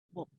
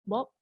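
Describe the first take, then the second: First: It is said in a secretive, hushed manner. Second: It is said seriously, followed by a pause. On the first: The speaker is about to share a secret. "Kalau anda ingin memberitahu tentang satu rahsia kepada Bob" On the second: The speaker has something important to say. "anda gunakan banyak jeda"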